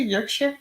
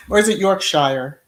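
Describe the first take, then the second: First: "Yorkshire" said as YORK-sher, unsure and rising; trying a pronunciation. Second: "Yorkshire" said as York-shy-er, the second syllable spelled out; second pronunciation try. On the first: Unsure of a place name, she tries "Yorkshire" as YORK-sher. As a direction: test out "Yorkshire" as YORK-sher with a questioning rise. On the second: To her viewers, an alternative "Yorkshire" said York-shy-er. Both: Shown as a demonstration.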